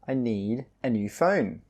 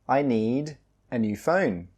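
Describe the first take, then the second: Both takes have the same delivery.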